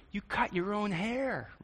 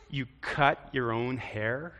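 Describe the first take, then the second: First: Higher, slow, softer disbelief; can't believe what you see; disbelieving tone. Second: Slow, amused, a laugh in it. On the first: Preacher showing a judging take, disbelieving. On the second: Preacher showing a friendly take, amused. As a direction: marvel at it with a chuckle. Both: Shown as a demonstration. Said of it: "It's a little different".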